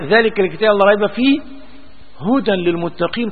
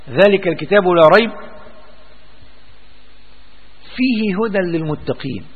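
First: The pause comes after the word fihi. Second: The pause comes before the word fihi. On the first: The whole Book is guidance for the pious. The speaker calls it right. "ده الوقف الأحسن" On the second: The Book contains guidance for the pious. The speaker calls it wrong. "ممكن نقف كده، فيه هدى للمتقين"

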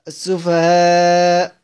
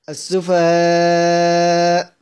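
First: The final long vowel is held moderately. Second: The final long vowel is held very long. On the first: "توسط" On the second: "ومد"

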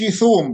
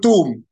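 First: The first consonant is a 'th' as in 'think'. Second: The first consonant is a plain 't' sound. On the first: "ما بقولش ثوم" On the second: "بقول توم"

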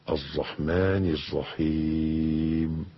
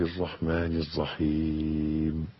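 Both takes have the same delivery.

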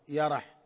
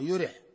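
First: The word is said with a after y and r. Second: The word is said with u after y, i after r. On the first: "بفتح الياء مع فتح الراء" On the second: "بضم الياء مع كسر الراء"

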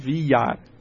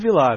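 First: The name is said with a Spanish-style ll sound. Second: The name is said with a plain Portuguese l. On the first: The speaker calls it right. "é Villar" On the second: The speaker calls it wrong. "Então o Vilar não é Vilar"

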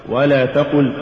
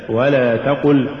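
The two takes are said the same way.

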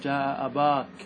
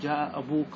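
First: The vowel after the b is a long a. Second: The vowel after the b is a long u. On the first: This form keeps the long a in every case. "أن تقتصر على الألف رفعا ونصبا وجرا" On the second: This is the complete, standard form. "أن تتم الكلمة فتأتي لها بالواو"

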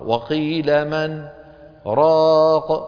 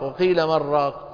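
First: A brief silent break separates man from raq. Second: The words run together as one word, marraq. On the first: It asks who will cure him. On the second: It could be heard as a seller of broth.

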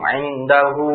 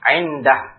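First: The final vowel is kept and drawn out long. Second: The final vowel is dropped, ending on a consonant. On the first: The reading continues into the next word. "Ini hanya ketika wasal saja, ketika disambung" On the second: The reading stops at this word. "Ketika kita wakaf, kita baca?"

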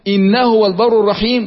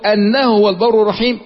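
First: The first word begins with an 'i' vowel. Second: The first word begins with an 'a' vowel. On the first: It starts a new sentence. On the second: It gives the reason for the prayer.

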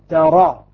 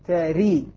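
First: The vowel after r is an open a. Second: The vowel after r is a full i. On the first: "فتح" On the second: "كسر"

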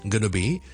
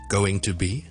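First: The phrase is reduced to a quick gonna. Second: The phrase is said as full separate words. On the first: "gonna be 即是going to be 咁样" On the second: "going to be"

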